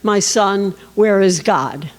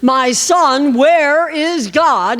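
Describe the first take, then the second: First: It is said gently and softly. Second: It is said with frustration.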